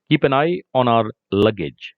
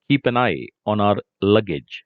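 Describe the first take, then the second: No difference in how they are said.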